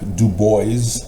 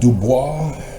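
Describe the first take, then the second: First: The name is said the New York local way. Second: The name is said the usual, non-local way.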